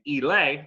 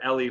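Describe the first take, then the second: First: The name ends with an 'ay' sound. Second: The name ends with an 'ee' sound. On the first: The speaker calls it right. "as I've been told this is the correct way to pronounce the name" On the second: The speaker calls it wrong. "I've been calling her Ellie for years"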